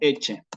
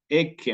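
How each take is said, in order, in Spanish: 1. La cc se pronuncia como ch. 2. La cc se pronuncia como k. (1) "en eclesiástico me va a sonar como" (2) "¿cómo sería en clásico?"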